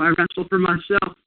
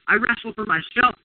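First: It is said timidly and quietly. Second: It is said with strong emotion.

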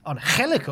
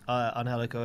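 First: The name is said with a Spanish-style accent. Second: The name is said with a plain English accent.

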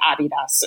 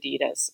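First: It is pronounced the German way. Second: It is pronounced the American way. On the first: This is how it is said in Germany. "when I was in Germany working there, you had to say Adidas" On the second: This is how it is said in the US. "every time we went to the US ... we'd switch to Adidas"

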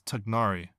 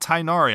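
First: The first syllable sounds like 'tug'. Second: The first syllable sounds like 'tig'. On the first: The speaker calls it right. "It's like Tugnari, kind of" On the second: The speaker calls it wrong. "It's not Tignari"

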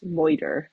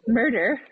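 First: The word is said in a put-on voice. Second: The word is said in a plain voice.

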